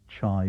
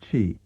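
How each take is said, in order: First: The vowel sounds like eye. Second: The vowel sounds like ee. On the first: This is the form heard in local dialect. "it's pronounced in dialect as chai" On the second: This is the form learned in the standard revived language. "we have learned to pronounce as chi"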